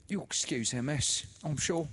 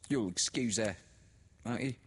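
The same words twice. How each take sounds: First: Much higher and louder, syrupy; oily sister. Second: Higher, louder knowing tone; meaningly. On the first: Sister comforts the widow, much higher and syrupy. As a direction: soothe with fawning sweetness. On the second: Sister speaks to Laura, higher and knowing. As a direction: lean on it meaningfully. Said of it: "She said meaningly". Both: A narrator's reading.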